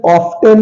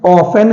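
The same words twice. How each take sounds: First: ऑफ्टन with a clearly sounded T, "off-ten"; wrong pronunciation. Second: ऑफन with no T, "off-en"; silent T. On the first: Teacher showing the form to avoid, wrong pronunciation. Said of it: "ऑफ्टन नहीं है". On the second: Teacher giving learners the correct form, silent T. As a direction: drop the T in ऑफन entirely. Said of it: "ऑफन है". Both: Shown as a demonstration.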